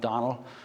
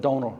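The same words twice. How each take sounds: First: The name is said with American-style stress. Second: The name is said the Irish way, long O. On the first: "I go to the U S and they call me Donal" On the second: "So I'm a Donal"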